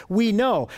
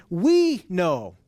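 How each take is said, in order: First: Said in the usual way. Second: "We" leaned on, "know" falling away; emphatic "We" before a falling "know"; stress on WE. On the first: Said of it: "first person plural pronoun built into that word". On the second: Shown as a demonstration. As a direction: put the weight on "We" in "We know". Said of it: "he adds an emphatic "we".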